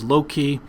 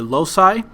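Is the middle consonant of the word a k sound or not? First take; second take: k; not k. First: The word is said with a k sound. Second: The word is said without a k sound.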